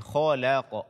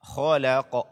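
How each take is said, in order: No difference in how they are said.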